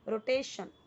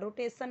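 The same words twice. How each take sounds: First: The last syllable is said as 'shun'. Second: The last syllable is said as 'sun'. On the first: The speaker calls it right. "शन" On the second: The speaker calls it wrong. "सन नहीं पढ़ना, रोटेशन नहीं"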